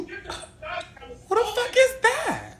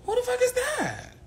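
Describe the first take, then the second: First: High, slow, outraged; shocked drawl. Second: High quick outraged question; shocked. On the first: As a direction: stretch it out in mock shock. Mock outrage, dragged out. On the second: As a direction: fire it off again, indignant. Repeats quicker. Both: Pretend.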